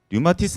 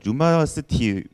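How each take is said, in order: First: The last two syllables are ti then seu. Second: The last two syllables are seu then ti. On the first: The speaker calls it right. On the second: The speaker calls it wrong.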